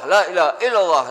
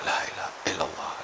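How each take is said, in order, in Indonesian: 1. Diucapkan dengan keras, dengan suara kuat. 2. Diucapkan dengan pelan, dengan suara rendah. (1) "Jadi kuat"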